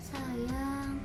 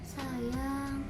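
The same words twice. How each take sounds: First: It is said softly and tenderly. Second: It is said softly and tenderly.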